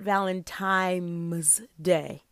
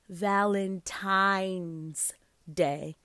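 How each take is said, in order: First: The word ends with an M sound. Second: The word ends with an N sound. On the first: The speaker calls it wrong. "not Valentine's Day. It is not Valentine like on a clock" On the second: The speaker calls it right. "It is pronounced Valentine's Day, ... It's Valentine with an N"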